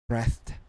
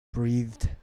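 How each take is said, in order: First: "breathed" as bretht, short e and t ending; final T sound. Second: "breathed" as breethd, long ee and voiced ending; final D sound. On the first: Teacher drilling a word list, "breathed" with final T. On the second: Teacher drilling a word list, "breathed" with final D. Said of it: "and D sound". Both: Shown as a demonstration.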